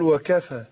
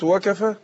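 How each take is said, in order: First: The word is said fully, without rushing the vowels. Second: The word is said hurriedly, with clipped vowels. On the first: The speaker calls it right. "قول وكفى" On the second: The speaker calls it wrong. "لكن لو قلت وكفى اتغير طبعا المعنى"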